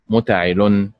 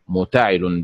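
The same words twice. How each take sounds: First: The stress is on the last syllable. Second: The stress is on the second syllable. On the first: "بالنبر على حركة اللام" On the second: "بالنبر على حركة التاء"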